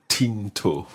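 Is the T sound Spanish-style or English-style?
English-style. The T is English-style, tongue behind the teeth.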